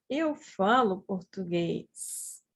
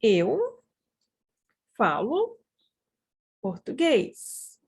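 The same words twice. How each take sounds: First: Said in the usual way. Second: Each word alone, long pauses between. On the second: Shown as a demonstration. Teacher models a sentence for practice, word by word. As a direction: say it one word at a time for learners.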